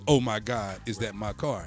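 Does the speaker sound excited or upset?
upset. It sounds upset and dismayed.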